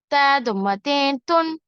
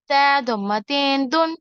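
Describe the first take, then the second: First: تا ضمتين تن with the ending said clearly as "tun", a t sound; self-correction. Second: تا ضمتين دن with the tanween ending voiced as "dun" instead of "tun"; slip of the tongue. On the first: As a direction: correct yourself to "تن", a crisp t. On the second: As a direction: mistakenly say "دن", with a d sound. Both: Shown as a demonstration.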